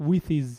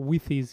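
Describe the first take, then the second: Both takes have the same delivery.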